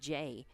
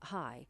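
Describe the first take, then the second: First: The name begins with a J sound. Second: The name begins with an H sound. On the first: "this player's last name is pronounced Jay" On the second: "I just heard the loudspeaker announcer, ... call her uh, Hi"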